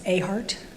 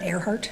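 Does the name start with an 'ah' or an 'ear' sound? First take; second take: ah; ear. First: The name starts with a plain 'ah' sound. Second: The name starts with an 'ear' sound. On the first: The speaker calls it right. "It's Ahart" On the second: The speaker calls it wrong. "not Earhart"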